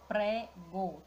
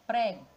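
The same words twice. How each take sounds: First: "prego" slowly in two beats, pre-go; sílaba por sílaba. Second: Said in the usual way. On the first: Shown as a demonstration. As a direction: break "prego" after the first syllable. ("prego" devagar, separando as sílabas: pre-go) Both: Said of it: "Já separando a sílaba".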